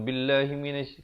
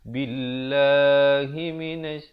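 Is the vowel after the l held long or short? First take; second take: short; long. First: The vowel after the l is cut short. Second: The vowel after the l is held long. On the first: The speaker calls it wrong. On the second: The speaker calls it right. "dibaca dengan dua harakat"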